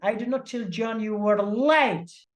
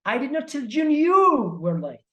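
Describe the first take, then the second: First: The stress is on "late". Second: The stress is on "you".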